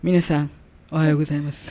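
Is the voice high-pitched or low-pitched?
low-pitched. It is said in a lower, neutral voice.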